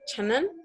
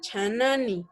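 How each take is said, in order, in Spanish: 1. La última sílaba se omite, terminando en n. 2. La última sílaba se pronuncia, terminando en vocal. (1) "es la forma en la que se está pronunciando" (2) "si hablamos de un habla cuidada, vamos a escuchar que sí se pronuncia chanani"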